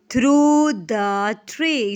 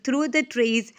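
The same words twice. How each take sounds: First: Loud, very slow "through, the, tree"; stretched, emphatic "through the tree"; counting out syllables. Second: Said in the usual way. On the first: Shown as a demonstration. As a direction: separate each word of "through the tree". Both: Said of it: "इसमें कितने syllables हो गए?".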